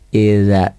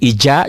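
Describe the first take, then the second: First: The middle consonant is a soft 'dh' sound. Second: The middle consonant is a 'j' sound. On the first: The speaker calls it right. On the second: The speaker calls it wrong.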